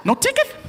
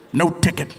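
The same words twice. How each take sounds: First: High, rising squeak; disbelieving question. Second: Low, firm answer; cop's confirmation. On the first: Driver to the cop letting him go, squeaky disbelief. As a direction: ask it in tiny high disbelief. Driver cannot believe cop's leniency. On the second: Cop letting the driver go, low and firm. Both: Acted.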